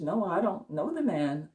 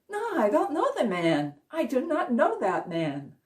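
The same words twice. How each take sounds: First: Said in the usual way. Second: A higher, emphatic "No, I don't know the man"; insistent Peter denial. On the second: Retold or imitated. Peter insists to the accuser that he doesn't know Jesus, voice raised higher. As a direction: push the denial up with rising panic.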